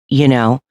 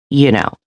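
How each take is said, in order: Both takes have the same delivery.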